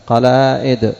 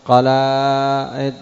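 First: قلائد with glottal stop after long aa; alif turned hamza. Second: قلائد very slow, overlong aa, stalled before the end; unpronounceable original form. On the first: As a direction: say قلائد as qalaa'id. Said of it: "هذه الألف همزة". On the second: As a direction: attempt قلائد as two alifs, very drawn out. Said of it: "ما تنطق". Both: Shown as a demonstration.

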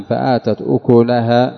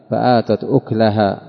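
First: أكلها said "ukulaha" in فآتت أكلها; slowly, with u after the kaf in أكلها; damma on the kaf. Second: أكلها said "uklaha" in فآتت أكلها; slowly, no vowel after the kaf in أكلها; silent-vowel kaf. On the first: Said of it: "ضم الكاف". (أكلها بضم الكاف) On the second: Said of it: "بإسكانها للتخفيف". (أكلها بإسكان الكاف) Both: Shown as a demonstration.

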